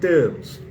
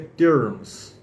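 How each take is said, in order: First: It has a British accent without an r sound. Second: It has an American accent with a curled r. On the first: "Estamos falando de inglês britânico" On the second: "a gente fosse falar no sotaque estadunidense, eu diria terms"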